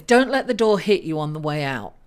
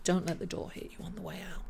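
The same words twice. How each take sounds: First: A firm, pointed mock dismissal; dismissive send-off. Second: Rattled off fast and much softer; a quick throwaway send-off; tossed-off dismissal. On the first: Astrologer voicing the reader's mood to viewers, pointed mock dismissal. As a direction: show them the door, lower and pointed. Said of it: "the energy that you're portraying is". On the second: Pretend. Astrologer repeating the quip to viewers, fast soft aside. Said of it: "It's that kind of energy".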